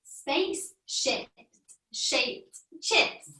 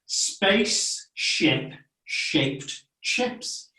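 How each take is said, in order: First: Slow, quiet attempt at Spaceship shaped chips; careful try. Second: Very slow, breathy Spaceship shaped chips; slow model. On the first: Child attempts the tricky phrase for the teacher, slowly. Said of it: "Good try". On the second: Teacher slows the tricky phrase for the child, very slowly. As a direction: stretch each word out slowly. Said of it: "So it goes like this". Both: Shown as a demonstration.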